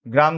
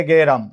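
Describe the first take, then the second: First: গ্রাম as one syllable "gram"; g runs straight into r in গ্রাম; cluster in গ্রাম. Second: গেরাম as two syllables "ge-ram"; inserted e in গেরাম. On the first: ("গ্রাম"-এ গ আর র যুক্ত উচ্চারণ) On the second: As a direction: slip an e between g and r in গেরাম. ("গেরাম"-এ গ-এর পরে এ) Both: Shown as a demonstration. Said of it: "আমরা বলেছিলাম গ্রাম থেকে".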